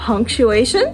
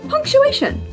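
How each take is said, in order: First: It is said with a rising, questioning tune. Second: It is said with a flat, falling tune. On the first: A question is being asked. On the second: A simple statement is being made.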